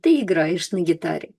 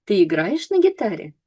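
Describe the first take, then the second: First: Said in the usual way. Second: Intonation lifted on "Ты играешь на гитаре" to make a question. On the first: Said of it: "it's just a statement". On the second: Shown as a demonstration. Teacher contrasts it with the statement, "Ты играешь на гитаре" with questioning rise. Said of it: "intonation goes up".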